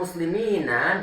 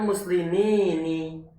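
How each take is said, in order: First: The final vowel after the n is 'a'. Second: The final vowel after the n is 'i'. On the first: "dengan fathah nunnya" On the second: "dikasrohkan huruf nunnya"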